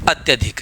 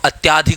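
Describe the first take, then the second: First: The vowel after 'ty' is short. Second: The vowel after 'ty' is long. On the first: The speaker calls it right. "तो क्या हो जाएगा शब्द अत्यधिक" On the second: The speaker calls it wrong. "कई बार हम उच्चारण में इसको अत्याधिक बोल देते हैं"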